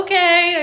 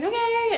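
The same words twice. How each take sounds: First: Higher, louder mock okay; retold giving-in okay. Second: Very high little okay; retold meek okay. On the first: Woman retelling her answer to boyfriend, giving-in okay. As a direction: give in out loud, pitched up. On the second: Woman re-enacting her reply to boyfriend, small high okay. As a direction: squeak out a small, giving-in okay.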